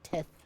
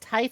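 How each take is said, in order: First: The vowel is a short 'ih' sound. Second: The vowel is a long 'eye' sound. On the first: The speaker calls it wrong. "I'm going to continue pronouncing it tith" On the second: The speaker calls it right. "now that I know that it's pronounced tithe"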